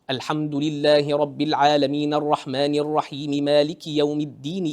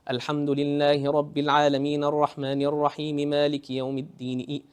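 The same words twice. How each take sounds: First: The recitation moves up and down with flow. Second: The recitation is flat with little pitch movement. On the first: The reciter's vowels are done properly. The speaker calls it right. "The person who gets the harakat right, There's more flow in the harakat" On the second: The reciter's vowels are weak. The speaker calls it wrong. "his harakat is very weak, you'll find his recitation so monotone. There's no up and down"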